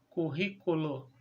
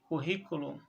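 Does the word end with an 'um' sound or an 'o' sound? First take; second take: o; um. First: The word is said in Portuguese form, ending 'o'. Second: The word is said in its Latin form, ending 'um'. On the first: This is the form adapted to Portuguese. "passou a ser pronunciado como currículo" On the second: This is the original foreign form. "A palavra curriculum vem do latim"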